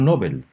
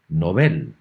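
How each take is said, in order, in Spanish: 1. El nombre se pronuncia de la forma habitual en español. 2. El nombre se pronuncia como lo dicen los suecos. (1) "como se acostumbra a pronunciar en castellano" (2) "se debe pronunciar como en sueco"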